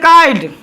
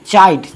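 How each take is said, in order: First: The word starts with a k sound. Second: The word starts with a ch sound. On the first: The speaker calls it wrong. "नहीं पढ़ेंगे काइड" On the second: The speaker calls it right. "यहां पर ध्वनि उत्पन्न हो रहा है च का"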